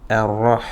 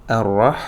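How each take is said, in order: No difference in how they are said.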